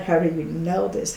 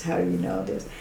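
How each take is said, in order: First: Voiced amazed question; stunned question. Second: Breathless whispered disbelief; barely voiced, stunned; awed whisper. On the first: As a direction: ask it aloud in shock. First take, voiced.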